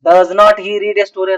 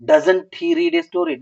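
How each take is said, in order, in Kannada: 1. 'Does not' ಅನ್ನು ಎರಡು ಪೂರ್ತಿ ಪದ ಆಗಿ ಹೇಳ್ತಾರೆ. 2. 'Does not' ಅನ್ನು ಒಂದು ಶಾರ್ಟ್ ಪದ ಆಗಿ ಮಾಡ್ತಾರೆ. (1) "ಅನ್ಬಾರ್ದು" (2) "ಶಾರ್ಟ್ ಆಗಿ ಓದ್ಬೇಕು"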